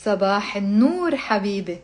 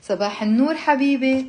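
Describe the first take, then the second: First: Measured line, left open to repeat; repeat-after-me reading. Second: Brisk, connected conversational Arabic; natural speed. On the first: Teacher reading for students to repeat, measured. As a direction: model the phrase clearly for learners. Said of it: "I just say the sentences, pause". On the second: Teacher showing how people speak in Lebanon, natural speed. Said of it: "like natural speed". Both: Shown as a demonstration.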